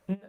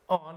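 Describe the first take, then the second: First: The word is reduced to a bare n sound. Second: The word is said in full with its vowel. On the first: "on becomes n" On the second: "on becomes n"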